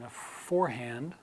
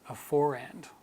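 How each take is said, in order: First: Both the R and the H are clearly pronounced. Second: The H is dropped and the R links across. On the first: "in American pronunciation" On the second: "in British pronunciation"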